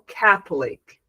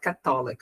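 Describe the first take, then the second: First: The stress is on the first syllable. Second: The stress is on the second syllable. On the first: The speaker calls it right. "the stress syllable in English is ca" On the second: The speaker calls it wrong.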